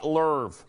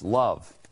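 First: The vowel sounds like 'er', as in 'her'. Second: The vowel sounds like 'uh', as in 'cup'. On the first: The speaker calls it wrong. "She says lerv" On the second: The speaker calls it right. "It's love"

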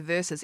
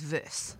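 First: The word is said with two syllables. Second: The word is said with one syllable. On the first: The speaker calls it right. "You say versus" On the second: The speaker calls it wrong. "Everyone else says verse. And it's not verse"

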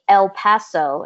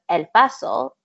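First: The name is pronounced the English way. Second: The name is pronounced the Spanish way. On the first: It ignores the city's history and culture. The speaker calls it wrong. "to say El Paso instead of" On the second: It is the city's true name. The speaker calls it right. "the true name"

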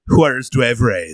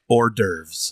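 First: It starts with a 'wahrez' sound. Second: It starts with an 'or' sound. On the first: The speaker calls it wrong. "I love saying it that way" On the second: The speaker calls it right. "Can you say it correctly for the people at home?"

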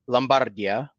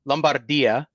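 First: It is said with an Italian accent. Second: The same.

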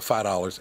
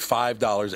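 First: The words are said casually, in local pronunciation. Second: The words are said carefully, in standard pronunciation. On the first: The speaker calls it wrong. "I go $5" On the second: The speaker calls it right. "I don't say $5 ever"

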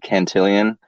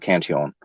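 First: The name is said with an English pronunciation. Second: The name is said with a French pronunciation. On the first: "a lot of people say Cantillon" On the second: "he was a French guy, so he pronounced it Cantillon"

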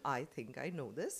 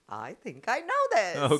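First: It is said flatly, as part of a sentence. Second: It is said with the most energy and passion.

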